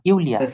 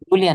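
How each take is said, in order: First: The name begins with a 'y' sound. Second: The name begins with a 'j' sound. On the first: The speaker calls it right. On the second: The speaker calls it wrong. "জুলিয়া না"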